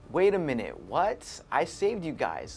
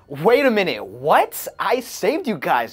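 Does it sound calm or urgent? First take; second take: calm; urgent. First: It sounds calm and whiny, without urgency. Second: It sounds urgent and defiant, with real feeling.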